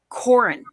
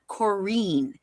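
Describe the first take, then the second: First: The name sounds much like the word corn. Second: The name does not sound like corn. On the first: The speaker calls it right. "no, corn, like corn" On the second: The speaker calls it wrong. "Everyone would call her Corrine"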